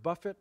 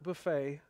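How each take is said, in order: First: The stress is on the first syllable. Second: The stress is on the last syllable. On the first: It means to strike repeatedly. The speaker calls it right. "that's the word buffet" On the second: It names a different word, a meal. The speaker calls it wrong. "not buffet"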